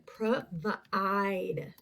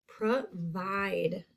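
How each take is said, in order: First: "Provide" sounded out as pro-vuh-IDE; second syllable stretched. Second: Said in the usual way. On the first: Shown as a demonstration. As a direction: split "Provide" and draw out its long I. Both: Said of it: "That second syllable".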